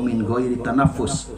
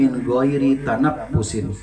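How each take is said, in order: First: The last word stops short on the 's' sound. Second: The last word ends with a full '-in' ending. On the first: The reader pauses here. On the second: The reading continues on without stopping.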